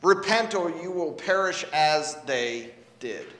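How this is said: The stress is on as they did.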